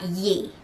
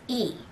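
First: The syllable starts with a 'y' glide. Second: The syllable starts directly with the vowel. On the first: The speaker calls it wrong. "not Ye" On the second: The speaker calls it right. "it's E"

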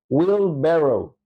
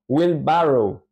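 First: The second vowel sounds closer to an e. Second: The second vowel sounds like a Spanish a. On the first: The speaker calls it right. "su pronunciación es más cercana a la E" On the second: The speaker calls it wrong. "No es wheelbarrow"

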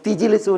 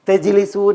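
First: The first syllable has an 'i' vowel. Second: The first syllable has an 'a' vowel. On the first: This is the tribe's dialect pronunciation. "അവർ തിജിലിസൂൻ എന്നാണ് പറയുക" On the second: This is the common pronunciation. "നമ്മൾ തെജിലിസൂൻ എന്ന് പറയുന്നതിന് പകരം"

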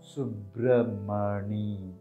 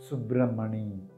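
First: The name is said slowly. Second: The name is said at normal speed.

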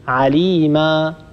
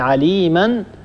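First: The word ends with a long a vowel. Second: The word ends with an n sound. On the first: The reader stops on the word. "نقف عليما" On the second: The word is read on without stopping. "بدل أن نقول عليما"

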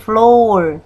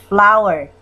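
First: It is read as spelled, unlike 'flower'. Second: It sounds exactly like the word 'flower'. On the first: The speaker calls it wrong. "Cara bacanya bukan flower" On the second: The speaker calls it right. "tapi flower"

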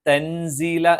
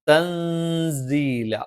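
First: The n sound is pronounced clearly. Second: The n sound is hidden and nasalized. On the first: The speaker calls it wrong. "വ്യക്തമായി പറയുന്നതിന് പകരം" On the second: The speaker calls it right. "ഒന്ന് മറച്ചിട്ട്"

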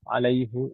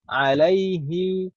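First: The word ends with a short u vowel. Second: The word ends with a short i vowel. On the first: The vowel is kept without matching the sound before it. The speaker calls it wrong. "kalau kita tetap paksakan dhammah sulit berat untuk diucapkan" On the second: The vowel matches the sound before it for easier speech. The speaker calls it right. "fihi alaihi ilaihi jadi kasroh"

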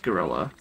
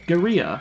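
First: The word is said with an English pronunciation. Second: The word is said with a Spanish pronunciation. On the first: "the English word is pronounced gorilla" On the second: "How do the Spanish pronounce it?"

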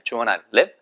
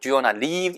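First: The vowel in 'live' is short. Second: The vowel in 'live' is long. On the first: The speaker calls it right. "얘는 짧게 live" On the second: The speaker calls it wrong. "이 live라고 길게 발음하시면 안 돼요"

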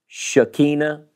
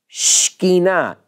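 First: The word is said with three full syllables. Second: The first syllable is rushed, giving two syllables. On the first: The speaker calls it wrong. "We say it in the South with three syllables" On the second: The speaker calls it right. "In Hebrew, it's really Shekinah. It's really not two syllables... it's hurry"

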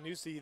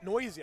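First: The first vowel sounds like 'new'. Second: The first vowel sounds like 'noise'. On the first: The speaker calls it wrong. "They just said Newsy" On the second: The speaker calls it right. "Noisy is correct"

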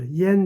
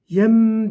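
First: The syllable ends with an n sound. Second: The syllable ends with an m sound. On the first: The speaker calls it wrong. "Yen demiyorum artık" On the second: The speaker calls it right. "Yem diyorum artık. Mim çıkıyor"

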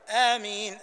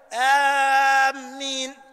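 First: The first vowel is held short, two counts. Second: The first vowel is held long. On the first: The speaker calls it right. "تقول آمين حركتين" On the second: The speaker calls it wrong. "وإياك أن تقول آمين"

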